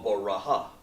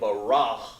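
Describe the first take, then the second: First: The word ends with an extra ha syllable. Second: The word ends with an h sound. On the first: "or baraha" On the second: "I didn't say barah"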